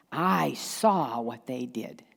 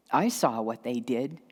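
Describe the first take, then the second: First: "I" and "saw" drawn out and separately stressed; slow, emphatic judgment. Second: "I" pitched up, then "saw what they did" lower; accusing "I", ending on a slight rise; pointed judgment. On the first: Judge hammering home the accusation, slow weight on "I saw". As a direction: labour over "I saw", slowly, falling at the end. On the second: Judge insisting on what was witnessed, pointed stress on "I". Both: Acted. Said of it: "how much energy went into the seeing".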